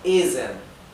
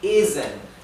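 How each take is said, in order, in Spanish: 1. La consonante del medio es una z sonora. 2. La consonante del medio es una z sonora.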